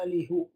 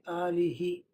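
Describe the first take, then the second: First: The final vowel is an 'u' sound. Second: The final vowel is an 'i' sound. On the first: The speaker calls it wrong. "otherwise it would be difficult to say" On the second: The speaker calls it right. "So you say"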